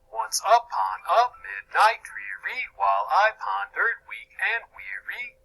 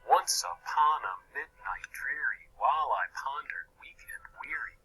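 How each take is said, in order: First: The beats fall on normally unstressed syllables. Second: The beats fall on the natural word stresses. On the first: The speaker calls it wrong. "read in the opposite meter" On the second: The speaker calls it right. "my pronunciation matches the poetic meter"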